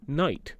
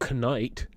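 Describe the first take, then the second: First: The K and GH are silent. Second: The written K and GH are sounded out. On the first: The speaker calls it right. "You say night" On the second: The speaker calls it wrong. "you don't go knight"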